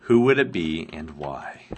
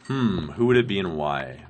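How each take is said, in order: First: A hushed, unvoiced musing; whispered. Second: Said in the usual way. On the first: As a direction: whisper the question to yourself. Rereading a viewer's question.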